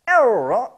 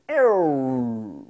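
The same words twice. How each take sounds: First: Era high and louder; falsetto era. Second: Era brought back down lower; lower slowed era. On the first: Beatbox teacher demonstrating the vocal scratch. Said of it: "goes like this". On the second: Beatbox teacher demonstrating the slower, lower scratch. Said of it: "making your voice lower". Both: Shown as a demonstration.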